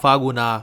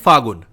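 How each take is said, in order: First: The word ends with an added 'a' vowel. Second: The word ends on a consonant sound. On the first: "English में लिखा है ना, इसीलिए आगे last में ए लगा रहा है" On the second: "जो हिंदी वाला प्रोनाउंसिएशन है"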